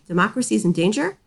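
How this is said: It ends rising, like a question.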